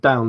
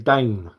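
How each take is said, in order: First: The vowel is a plain 'ow' sound. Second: The vowel sounds like an 'ay' sound. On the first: "and down" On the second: "they say Dane"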